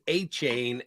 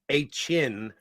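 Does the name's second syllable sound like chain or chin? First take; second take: chain; chin. First: The second syllable rhymes with rain. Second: The second syllable rhymes with tin. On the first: The speaker calls it wrong. "I was told it was A Chain" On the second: The speaker calls it right. "it's uh, A Chin or A Chin, not A Chain"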